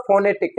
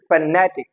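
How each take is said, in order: First: "phonetic" with the stress on the first syllable; common mispronunciation. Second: "phonetic" stressed on the second syllable; correct pronunciation. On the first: Teacher showing learners their usual mistake, mispronounced. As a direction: say "phonetic" as FO-ne-tic, front-stressed. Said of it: "This is not phonetic as we pronounce it". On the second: Teacher modelling the word for learners, correctly stressed. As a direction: say "phonetic" as fuh-NE-tic, weak first vowel. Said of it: "this is phonetic". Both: Shown as a demonstration.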